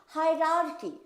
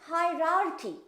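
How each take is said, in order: No difference in how they are said.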